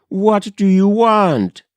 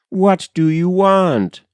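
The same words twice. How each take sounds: First: Higher, raised frightened call; cry into the dark. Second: Raised, higher call into the night; mild cry into the dark. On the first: Wife calls again to the hidden stranger, higher. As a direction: call it out again, pushing harder. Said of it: "she cried". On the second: A frightened wife calls out into the dark road. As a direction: call out toward the unseen stranger. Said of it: "she cried to all the dark". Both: Acted.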